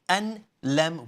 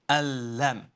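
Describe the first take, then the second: First: The n sound is kept before the l. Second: The n sound is merged into the l. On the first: The speaker calls it wrong. "Rather than saying an-lam" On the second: The speaker calls it right. "we are saying al-lam"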